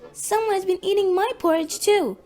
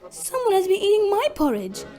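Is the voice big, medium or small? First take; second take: small; medium. First: It is said in a little voice. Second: It is said in a medium-sized voice.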